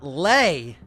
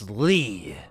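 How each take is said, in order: First: The word does not sound like 'Lee'. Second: The word sounds like the name 'Lee'. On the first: The speaker calls it wrong. "it's not Lei" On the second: The speaker calls it right. "it's Lee. Like Stan Lee"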